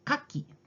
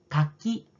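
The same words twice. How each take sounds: First: The pitch falls across the word. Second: The pitch rises across the word. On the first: "kaki turun" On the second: "kaki naik"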